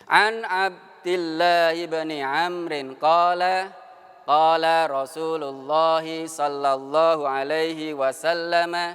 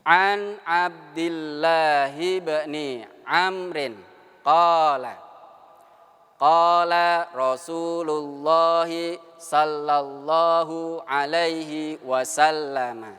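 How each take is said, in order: First: It is recited at a noticeably faster pace. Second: It is recited at a slower, careful pace.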